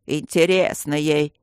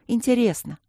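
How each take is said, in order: First: Slow, stretched "Интересно ей"; displeased grumble. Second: Higher, short, falling "Интересно"; sighing admission. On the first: Guardian throws "Интересно ей" back at the student, grumbling. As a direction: echo "Интересно ей" in a disgruntled grumble. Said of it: "недовольно пробурчал Аристарх". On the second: Student confesses "Интересно" to her stone friends, high sighing admission. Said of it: "со вздохом призналась Алинка". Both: A narrator's reading.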